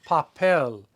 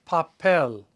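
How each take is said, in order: Both takes have the same delivery.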